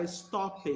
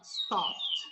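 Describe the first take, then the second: First: Stopped as es-tó-pe, with an added vowel and the E said; wrong pronunciation. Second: Stopped as stopt, ending in a T sound; correct pronunciation. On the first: Teacher warning students, stopped as es-tó-pe. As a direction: say stopped the wrong way, as es-top-ped. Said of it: "Você não vai falar isso". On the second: Teacher modelling the right form, stopped as stopt. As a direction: say stopped as if it ends in T. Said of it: "Como se tivesse a letra T no final". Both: Shown as a demonstration.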